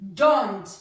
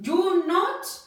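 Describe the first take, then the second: First: It is said quickly as one contracted word. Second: It is said as two full separate words.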